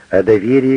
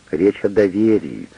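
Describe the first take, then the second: First: Доверии repeated louder and stressed; emphatic repeat. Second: Said in the usual way. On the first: A narrator's reading. Wife insisting to husband it's about trust, стресс на «доверии». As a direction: hammer home the word доверии.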